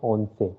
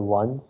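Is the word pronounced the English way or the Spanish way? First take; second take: Spanish; English. First: It is said as two syllables, Spanish style. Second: It is said as one syllable, English style. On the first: The speaker calls it right. "the pronunciation is different. It is once" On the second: The speaker calls it wrong. "Don't say once or anything which you say in English"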